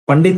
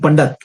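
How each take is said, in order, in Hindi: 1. शब्द का अंत 'dit' की ध्वनि से होता है। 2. शब्द का अंत 'dat' की ध्वनि से होता है। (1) "पंडित नहीं" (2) "जो ऐसा बोला जाता है उच्चारण में"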